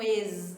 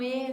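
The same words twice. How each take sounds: First: "es" said as ez, with a voiced z ending; closed e plus audible z in "es"; Z sounded. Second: "E" as a plain closed ay vowel, nothing after it; closed é for "E", z left off. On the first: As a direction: buzz the final z of "es". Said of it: "você não escuta um es". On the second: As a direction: stop "E" on the vowel. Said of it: "você escuta um E". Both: Shown as a demonstration.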